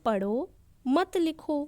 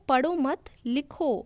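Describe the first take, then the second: First: There is a pause after the first word. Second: There is a pause after the second word. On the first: Read, and do not write. "इधर ये अर्थ हुआ कि पढ़ लो तुम लिखो मत" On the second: Do not read, write instead. "इधर अर्थ हो गया पढ़ो मत अभी लिख लो"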